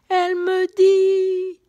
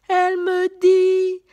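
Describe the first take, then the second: The two takes are said the same way.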